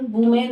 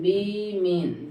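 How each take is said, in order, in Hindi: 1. पहला स्वर 'oo' जैसा सुनाई देता है। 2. पहला स्वर 'ih' जैसा सुनाई देता है। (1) "वुमेन नहीं" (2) "विमेन होता है"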